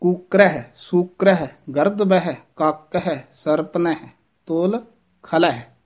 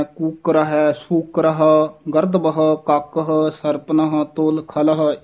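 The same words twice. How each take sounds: First: ਕੂਕਰ ਹੈ ending in a falling "kookreh"; fronted "eh" on ਸੂਕਰ ਹੈ, ਸਰਪਨ ਹੈ. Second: ਕੂਕਰ ਹੈ ending in a neutral "kookrah". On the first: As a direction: end ਕੂਕਰ ਹੈ, ਖਲ ਹੈ in "eh", item by item. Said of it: "ਇਸ ਤਰ੍ਹਾਂ ਸ਼ੁੱਧ ਉਚਾਰਨ ਹੈ". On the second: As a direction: open "-ahə" on ਸੂਕਰ ਹੈ, ਸਰਪਨ ਹੈ. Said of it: "ਇਸ ਤਰ੍ਹਾਂ ਉਚਾਰਨ ਨਹੀਂ ਕਰਨਾ ਹੈ". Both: Shown as a demonstration.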